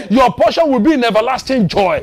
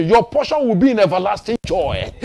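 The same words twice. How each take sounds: First: "Your portion will be in everlasting joy" pitched up with more force; emphatic repeated declaration. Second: Said in the usual way. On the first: Real, not acted.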